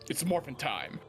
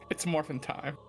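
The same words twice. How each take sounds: First: It is said loudly with full energy. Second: It is said quietly with little energy. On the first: The speaker calls it right. "There you go, I got it" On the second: The speaker calls it wrong. "Say it with your whole chest, though"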